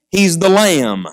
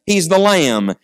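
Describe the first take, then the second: No difference in how they are said.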